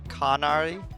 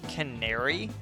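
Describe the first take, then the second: First: The name is said unlike the English word canary. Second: The name is said like the English word canary. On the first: "I've been pronouncing it Kanari" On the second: "technically it's pronounced Canary"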